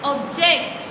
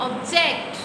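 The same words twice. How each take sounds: Both takes have the same delivery.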